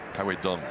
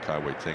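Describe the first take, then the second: First: The last name starts with a D sound. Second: The last name starts without a D sound. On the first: The speaker calls it right. "That is the correct pronunciation" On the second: The speaker calls it wrong. "we have been pronouncing it wrong"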